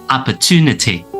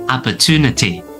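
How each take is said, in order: No difference in how they are said.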